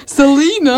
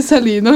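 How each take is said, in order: First: Selena in a mock Australian accent; put-on Aussie pronunciation of Selena. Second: Said in the usual way. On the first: Shown as a demonstration. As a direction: say Selena the Australian way, a touch exaggerated. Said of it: "De har en litt sånn jævlig aksent borte i Australia". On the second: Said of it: "De har en litt sånn jævlig aksent".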